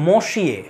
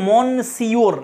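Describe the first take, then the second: First: It is said with a silent 'n', 'mosh-yeh'. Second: It is said as spelled, 'mon-see-or'. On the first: The speaker calls it right. "এটার উচ্চারণ হবে মশিয়ে" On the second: The speaker calls it wrong. "বানান দেখে তো মনে হচ্ছে মনসিওর এরকম, কিন্তু এরকম উচ্চারণ নয়"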